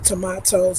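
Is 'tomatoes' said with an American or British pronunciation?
British. The word has a British pronunciation.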